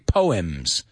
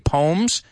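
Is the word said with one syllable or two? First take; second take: Two; One. First: It is said as two syllables, sounding the e. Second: It is said as one syllable, rhyming with homes. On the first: "I've heard people say poems, right? And pronounce that E" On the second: "I say poems, que rima con homes"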